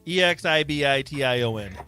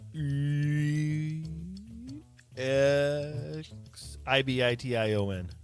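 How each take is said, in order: First: The letters are spelled at normal pace. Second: The letters are spelled out slowly.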